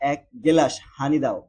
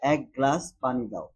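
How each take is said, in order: First: It is said with a regional dialect pronunciation. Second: It is said with a standard Bengali pronunciation. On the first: "অপ্রমিত বা আঞ্চলিক উচ্চারণ" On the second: "প্রমিত"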